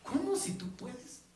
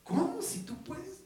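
First: Slow, gently incredulous question; mild voicing of Jesus, slow and puzzled. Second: Higher, slow, amazed "¿Cómo si tú puedes?"; Jesus' incredulous question rising much higher; Jesus asking again, higher. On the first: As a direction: let him sound amazed at the doubt. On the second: Acted. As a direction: repeat it climbing up in disbelief. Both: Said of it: "Jesús le dijo".

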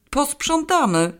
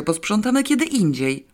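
First: Posprzątamy high and slow, in disbelief; high, slow, disbelieving Posprzątamy; incredulous echo. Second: Said in the usual way. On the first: A narrator's reading. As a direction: echo Posprzątamy back, stunned. Incredulous echo of her word.

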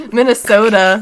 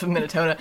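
First: Minnesota belted out loud and clear, the s sharp; loud playful correction. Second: Minnesota said as Minnetona, with a t for the s; slurring Minnesota into Minnetona, unaware; mispronounced Minnesota. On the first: Host correcting herself to her cohost, shouting Minnesota playfully. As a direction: shout Minnesota out to get it right. Stumbles, then repeats the state name. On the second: Host tripping over the state name, saying Minnesota as Minnetona. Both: Real, not acted.

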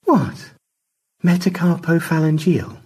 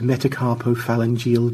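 First: METACARPOPHALANGEAL said high and coy; high-pitched, teasing "Metacarpophalangeal"; teasing repeat. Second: Said in the usual way. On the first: A narrator's reading. Repeating the word on Stanley's request.

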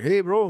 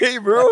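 First: High, loud bro greeting; lightly voiced gangster friend. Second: High, loud laughing bro greeting; gangster bro voice. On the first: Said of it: "really bad Raul impression". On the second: Retold or imitated. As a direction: show how a gangster says hi. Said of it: "I sound like a gangster".

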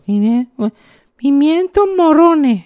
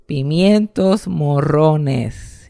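First: Put-on very high, slow, struggling child voice; a tiny boy fumbling the hard words; little kid mispronouncing. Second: Slow, deliberate "Pimientos morrones", every syllable spelled out; over-articulate it slowly for a small child; mother correcting. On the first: Little boy to his mother, high and unsure. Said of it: "yo no casi ni hablaba". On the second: Retold or imitated. Mother teaching her son, slow and careful. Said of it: "No, no".

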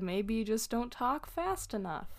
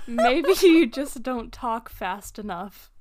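First: Said in the usual way. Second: Retold comeback with laughter breaking through; laughing sarcastic comeback; laughing retort. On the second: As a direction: say it while cracking up. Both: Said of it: "And so I said".

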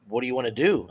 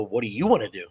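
First: Said in the usual way. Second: YOU lifted in a pitch swoop; what do YOU wanna do; stress on YOU. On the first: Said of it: "they just come to me like". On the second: Retold or imitated. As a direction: throw the question back, leaning on "you". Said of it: "I look at them and I go".

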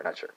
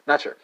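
First: Said in the usual way. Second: Not sure said louder, stress on Not; firmer repeat. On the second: Real, not acted. Teacher repeats his doubt more firmly, stressing Not.

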